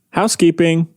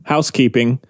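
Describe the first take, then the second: First: The word is said with more energy and emphasis. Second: The word is said plainly with little energy. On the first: The speaker calls it right. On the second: The speaker calls it wrong.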